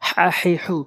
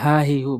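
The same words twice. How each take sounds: First: The h comes from the middle of the throat. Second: The h is a plain breathy sound. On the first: The speaker calls it right. "হলকের মাঝখান থেকে বলতে হবে" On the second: The speaker calls it wrong. "বলি হা হি হু, বলা যাবে না"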